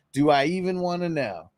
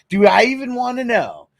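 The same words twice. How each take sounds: First: Said in the usual way. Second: Amused disbelief. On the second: Real, not acted.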